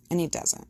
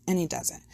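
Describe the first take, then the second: No difference in how they are said.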